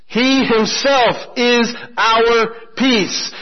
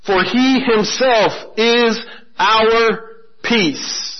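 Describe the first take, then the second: First: Slow repeated emphasis. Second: Slow scripture reading. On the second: Pastor reading the key verse to the congregation, slow and deliberate. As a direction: read each word slowly and deliberately. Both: Shown as a demonstration. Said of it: "Look at verse fourteen".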